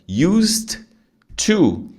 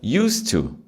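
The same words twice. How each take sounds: First: The d and t are said separately. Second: The d is dropped, linking into to. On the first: "tem que falar bem pausado" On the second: "o som é como se fosse isso aqui, ó, do primeiro. Use to"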